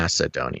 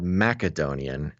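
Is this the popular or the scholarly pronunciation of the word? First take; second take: popular; scholarly. First: It is said the popular, common way. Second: It is said the scholarly, less common way. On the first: This is the form most people use. The speaker calls it wrong. "not Macedonian. ... Macedonian is a popularization um, pronunciation" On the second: This is the form purists use. The speaker calls it right. "you know that it's actually called Macedonian"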